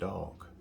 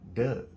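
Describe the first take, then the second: First: The vowel is standard, as outsiders say it. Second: The vowel is Baltimore-style, like 'Doug'.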